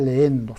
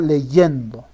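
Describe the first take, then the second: First: The two vowels run together with no y sound. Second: A clear y sound separates the two vowels. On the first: The speaker calls it wrong. "no se dice leendo" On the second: The speaker calls it right. "sino leyendo"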